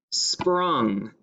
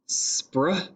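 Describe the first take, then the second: First: Said in the usual way. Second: "Spr-ung" as spr, pause, then ung; blend sounded out. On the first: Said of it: "The word is sprung". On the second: Shown as a demonstration. Teacher showing a three-letter blend, "Spr-ung" in two parts. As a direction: split "Spr-ung" after the opening blend. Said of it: "a three-letter blend here at the beginning".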